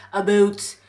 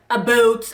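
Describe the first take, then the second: First: "About" said as "aboot", Canadian vowel; Canadian accent. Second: Said in the usual way. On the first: Shown as a demonstration. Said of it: "nobody really talks like".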